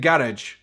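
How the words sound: It is said the Scottish way.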